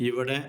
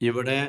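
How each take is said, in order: The two takes are said the same way.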